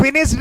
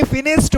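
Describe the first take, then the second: First: D ending on फिनिश्ड; wrong pronunciation demo. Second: T ending on फिनिश्ड; correct pronunciation demo. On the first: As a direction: say फिनिश्ड as finishd. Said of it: "इसको फिनिश्ड नहीं". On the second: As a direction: say फिनिश्ड as finisht. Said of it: "बोला जाता है". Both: Shown as a demonstration.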